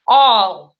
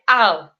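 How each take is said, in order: First: The vowel is rounded, sounding close to o. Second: The vowel is a plain open a. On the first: The speaker calls it right. "Читается вот так произношение" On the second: The speaker calls it wrong. "обычный бы русский человек прочитал бы это просто "ал""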